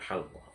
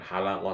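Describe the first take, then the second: First: No vowel is heard between the L and Q. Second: A vowel is heard between the L and Q. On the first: The speaker calls it right. "tapi halqah" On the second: The speaker calls it wrong. "bukan halaqah"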